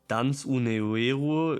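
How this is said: It is said with an Italian accent. The speaker calls it wrong. "if we pronounce this Italian"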